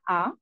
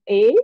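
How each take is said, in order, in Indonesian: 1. Huruf diucapkan dengan nama Indonesianya. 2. Huruf diucapkan dengan nama Inggrisnya.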